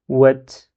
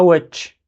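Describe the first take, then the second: First: "wet" ending on a clean vowelless t; right take of "wet" with plain final t; t with soukoun. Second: "wetch" with a hissy tch at the end; wrong tch ending. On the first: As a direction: close "wet" on a simple t, no ch. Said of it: "et donc là, je dis". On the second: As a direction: turn the final t of "wetch" into tch. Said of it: "Et c'est pas". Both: Shown as a demonstration.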